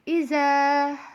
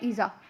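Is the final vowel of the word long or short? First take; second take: long; short. First: The final vowel is drawn out long. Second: The final vowel is kept short. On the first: The speaker calls it right. "थोड़ा सा खींचते हैं, थोड़ा सा लंबा पढ़ते हैं" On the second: The speaker calls it wrong. "कुछ लोग पढ़ लेते हैं इज़ा, तो ऐसे नहीं पढ़ेंगे"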